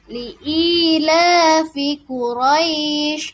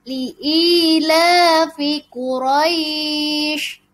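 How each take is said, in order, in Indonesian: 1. Vokal sebelum akhir ditahan sebentar. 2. Vokal sebelum akhir ditahan lebih lama. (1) "Boleh dua harokat" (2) "empat harokat. Dipanjangkan"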